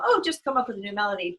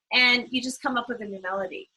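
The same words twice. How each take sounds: First: Quick, breezy dismissive tone; mock flippant. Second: Said in the usual way. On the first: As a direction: toss it off like it's nothing, fast. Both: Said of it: "I know I'm just kinda being flippant".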